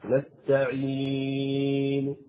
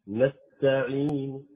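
First: The long vowel is held for six counts. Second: The long vowel is held for two counts. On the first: "هذا ست حركات" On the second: "هذا حركتين"

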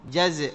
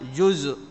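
First: The first syllable has an 'a' vowel, jaz'. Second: The first syllable has a different vowel, not 'a'. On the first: The speaker calls it right. "هكذا ضبط، ابن جزء" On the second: The speaker calls it wrong. "وليس جزء"

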